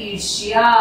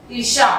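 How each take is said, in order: First: "ईर्ष्या" as irshya, y after the sh; correct y glide. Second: "ईर्षा" as irsha, ending in plain sha; colloquial ending. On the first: Teacher models the right form for pupils, "ईर्ष्या" ending in shya. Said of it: "सही उच्चारण होता है". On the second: Teacher shows pupils the everyday form, "ईर्षा" ending in sha. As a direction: end "ईर्षा" without a y glide. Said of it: "ईर्षा का सही उच्चारण". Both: Shown as a demonstration.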